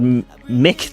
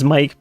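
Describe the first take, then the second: First: The vowel is short, rhyming with 'sick'. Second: The vowel is long, rhyming with 'like'. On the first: This follows the spelling without a final E. "It doesn't have an E" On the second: This is how people normally say it. "one says Mike"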